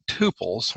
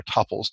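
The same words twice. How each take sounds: First: Tuples said TOO-pulz; long-U pronunciation. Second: Tuples said TUP-ulz; short-U pronunciation. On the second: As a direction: say tuples to rhyme with "couples". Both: Shown as a demonstration. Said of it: "depending how you want to pronounce it".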